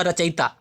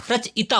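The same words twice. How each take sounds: First: रचयिता run together as misspelt; wrong form shown. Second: रचयिता split as "rach-ita"; correct form shown. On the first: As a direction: read out the faulty रचयिता. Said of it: "गलत दिया हुआ". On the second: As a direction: break रचयिता after "rach". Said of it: "रचयिता होता है". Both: Shown as a demonstration.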